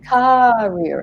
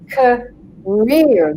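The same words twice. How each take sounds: First: The stress is on the first syllable. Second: The stress is on the second syllable. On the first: The speaker calls it wrong. "one that typically gets said is career" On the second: The speaker calls it right. "The rear is the long part, and the k is the short part"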